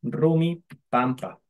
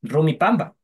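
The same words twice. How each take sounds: First: "Pampa" with a clear unvoiced p, said slowly; "Rumi Pampa" spelled out slowly with a crisp p; correct Kichwa form. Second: "Pamba" said with a voiced b, as people often say it; common wrong form. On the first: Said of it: "en quichua se debería escribir así". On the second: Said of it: "a veces decimos". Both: Shown as a demonstration.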